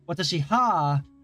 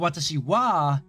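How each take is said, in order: First: The particle is pronounced with an h sound, ha. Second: The particle is pronounced with a w sound, wa. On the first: The speaker calls it wrong. "is a bit tricky to say" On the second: The speaker calls it right. "is easier to say"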